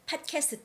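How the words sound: It is said with Korean-style pronunciation. "In Korean, we say it podcast"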